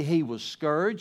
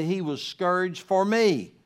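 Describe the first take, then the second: First: Said in the usual way. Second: Slower, leaning hard on "me" at the end; stress on me. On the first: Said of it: "don't just say he was scourged". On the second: Shown as a demonstration. Pastor urging the congregation to make it personal, stressing "me". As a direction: land the word "me" with a falling weight. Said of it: "say he was scourged for me".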